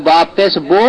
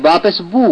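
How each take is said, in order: First: বো ending in a long o; wrong vowel sound. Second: বু ending in a long, pure u; correct vowel sound. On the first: Teacher showing the error, majhul vowel. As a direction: say বো with o in place of u. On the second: Teacher correcting the error, maruf vowel. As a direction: say বু with closed u, never o. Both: Shown as a demonstration. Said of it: "বো নয়".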